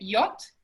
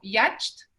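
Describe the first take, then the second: First: It is said without sounding every written letter. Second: Every written letter is sounded out as spelled. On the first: This is how the word is really said. The speaker calls it right. "la verdad es que se, se dice" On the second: Someone who does not know the word might say it this way. The speaker calls it wrong. "las podría pronunciar como"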